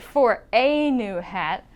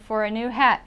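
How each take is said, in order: First: The word 'a' has a full, clear vowel. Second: The word 'a' is reduced to a schwa. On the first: The speaker calls it wrong. "I won't say for a new hat" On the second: The speaker calls it right. "I'll change this A to a uh, which you can call the schwa sound"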